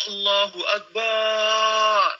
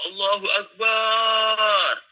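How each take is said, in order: The two takes are said the same way.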